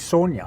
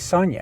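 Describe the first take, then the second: First: The name has an Afrikaans pronunciation. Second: The name has an English pronunciation. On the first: "when you're speaking Afrikaans to people, you say Sonia" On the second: "you're speaking English, you say Sonia"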